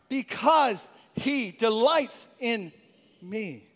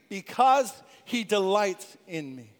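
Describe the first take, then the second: First: It is said with strong, heartfelt conviction. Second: It is said in a plain, ordinary way.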